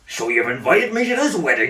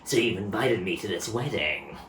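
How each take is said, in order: First: It is said in a Hagrid voice. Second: It is said in a Solid Snake voice.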